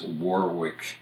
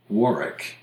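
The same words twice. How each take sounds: First: It is said with the Rhode Island pronunciation. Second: It is said with the British pronunciation. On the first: This is how the American town is named. "becomes Warwick, Rhode Island" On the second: This is how the English town is named. "in the British pronunciation"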